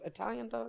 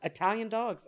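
First: Much softer repeat to herself; quiet aside. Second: Said in the usual way. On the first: Real, not acted. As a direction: echo it quietly as an afterthought. Punchline then quiet repeat.

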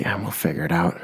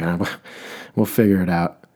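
First: Said in the usual way. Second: Weary sigh of a laugh, giving up; tired mock exasperation, amused; exasperated. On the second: Shown as a demonstration. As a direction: let the frustration leak out with a chuckle. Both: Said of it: "you gotta say it kind of ex-, exasperated".

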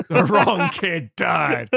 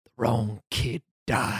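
First: Loud, slow, hammed-up lament; mock-dramatic outburst with laughter creeping in; over-the-top accusation. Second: Low, slow and deliberate; grave, drawn-out verdict; solemn accusation. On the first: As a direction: draw each word out, loudly. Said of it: "doing the whole literal phrase". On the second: Retold or imitated. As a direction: say it heavily, word by word. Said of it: "might as well say".

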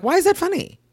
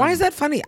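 First: Outraged high question. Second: Indignant repeat. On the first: Retold or imitated. Retelling the prank video, an indignant high demand. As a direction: pitch shoots way up, indignant. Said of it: "I'm like". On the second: Real, not acted. To her cohost, repeating the outraged question. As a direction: press the question again, fed up.

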